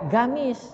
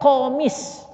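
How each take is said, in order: First: It starts with a plain G sound. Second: It starts with a deep throat Q sound. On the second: This is the original form with qaf. "Itu sebenarnya komis"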